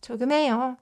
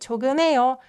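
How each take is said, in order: First: The h sound in the middle is barely heard. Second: The h sound in the middle is barely heard.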